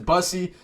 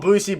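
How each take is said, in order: First: The first vowel is a short uh sound. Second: The first vowel is a long oo sound. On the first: This is the name's proper pronunciation. "I think his proper pronunciation is Bussey" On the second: This is the speaker's own casual way of saying it. "I like to call him Boosie"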